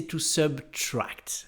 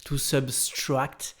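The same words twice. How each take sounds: First: To subtract said slowly with no extra S, "sub-TRACT"; slow, clean subtract with no S before the T; correct subtract. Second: To subtract said slowly with a wrong S, as "sub-STRACT"; slow subtract with an S wrongly added before the T; wrong extra S. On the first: Teacher giving the right form of subtract. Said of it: "mais c'est to subtract". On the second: Teacher showing the common mistake in subtract. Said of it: "on a vraiment envie de rajouter un S". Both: Shown as a demonstration.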